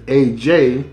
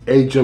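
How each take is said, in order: First: Its two vowel sounds are the same. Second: Its two vowel sounds are different. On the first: This is how the spelling suggests it should be said. "her name should either be either A J" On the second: This is how the name is normally said. "they pronounce the A two different ways"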